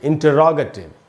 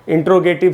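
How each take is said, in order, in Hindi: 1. शुरुआत पूरी तरह 'inter-rogative' की तरह बोली जाती है। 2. शुरुआत 'intro-gative' में सिकुड़ जाती है। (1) "इसका प्रोनाउंसिएशन है इंटरोगेटिव" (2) "इसका उच्चारण इंट्रोगेटिव नहीं होता"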